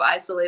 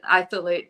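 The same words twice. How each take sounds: First: The word is said with ordinary pronunciation. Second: The word is said with a speech impediment. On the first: This is the usual name. "instead of isolate" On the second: This is how the product owner says the name. "I'm going to call it an isolate"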